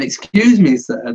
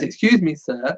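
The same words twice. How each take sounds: First: It is said in an assumed character voice. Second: It is said in the speaker's ordinary voice.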